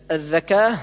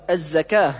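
First: الذكاه with interdental dh for z; zay as dh. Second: الزكاه with a clear z; correct zay. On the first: Teacher showing the reverse error, dh in الذكاه. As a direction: lisp the ز into ذ in الذكاه. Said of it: "كالنطق بالزاي ذالا". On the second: Teacher correcting, الزكاه with proper z. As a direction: buzz a clean ز in الزكاه. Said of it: "والصواب". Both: Shown as a demonstration.

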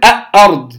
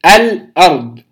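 First: "أ-، أرض" with the ل of the article left out; لام محذوفة. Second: الأرض with a distinct ل before the hamza; إظهار اللام. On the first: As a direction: drop the ل, leaving a bare hamza before "أرض". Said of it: "لا أقول". (أرض دون نطق لام التعريف) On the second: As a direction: articulate the vowelless ل clearly in "الأرض". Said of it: "أظهرت اللام الساكنة". (الأرض بإظهار لام التعريف) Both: Shown as a demonstration.

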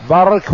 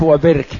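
First: برك said bark, a-vowel after the ba; fatha on برك. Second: وبرك said wa-birk, i-vowel after the ba; kasra on برك. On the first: Teacher showing both readings, برك with fatha. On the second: Teacher showing both readings, وبرك with kasra. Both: Shown as a demonstration. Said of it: "بفتح الباء وكسرها".

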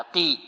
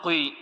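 First: قي with a clean long i, no w-glide; correct articulation. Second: قي rounded into a faulty "qui"; wrong pronunciation. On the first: Teacher models qaf with kasra, clean قي. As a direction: say قي straight into a pure "ee". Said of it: "هكذا". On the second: Teacher shows what we do not say, rounded faulty قي. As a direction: slip a w-glide into قي, like "qwee". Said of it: "هذا خطأ". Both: Shown as a demonstration.

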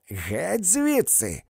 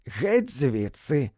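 First: Higher, slow shout of Геть звідси; higher shouted get out; repeated shout. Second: Slow, louder shout of get out; angry woman's slow shout; yelled command. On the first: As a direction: throw them out once more. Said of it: "повторила вона". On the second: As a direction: drive them out with a yell. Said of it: "крикнула жінка". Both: A narrator's reading.

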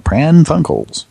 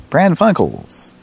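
First: "Pran Funkels" blurted slow and high, a botched "prank phone calls"; garbled slip. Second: "Pran Funkels" said slow and high on purpose, as a mock brand name; deliberate slip. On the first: Real, not acted. Host fumbling the segment name, slow slip. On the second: Host reusing his slip as a mock business name. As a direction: announce "Pran Funkels" slowly like a company name. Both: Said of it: "Almost said prank phone calls".

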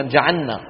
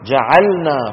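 First: جعلنا with the lam swallowed into the nun, said like جعنّا; wrong merged letters. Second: جعلنا with the lam clearly separated from the nun; clear correct pronunciation. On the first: Teacher showing students the wrong rushed pronunciation, merged letters. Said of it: "ما في شيء اسمه جعلنا". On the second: Teacher demonstrating to students the correct clear articulation. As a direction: say جعلنا carefully, lam then nun, a bit louder. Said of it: "لابد أن نقول إيه؟". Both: Shown as a demonstration.

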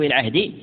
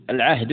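First: العهد ending in i, "al-'ahdi". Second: العهد ending in u, "al-'ahdu". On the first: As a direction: say العهد as "al-'ahdi", with final kasra. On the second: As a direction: say العهد as "al-'ahdu", with final damma. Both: Shown as a demonstration. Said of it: "أو العهد مثلث".

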